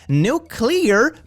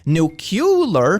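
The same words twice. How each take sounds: First: The word is said as nu-clear. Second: The word is said as nu-cu-lar. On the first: The power is clear of uranium. "power that's clear of uranium" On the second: The power still has uranium in it. "has U because there is still uranium in it"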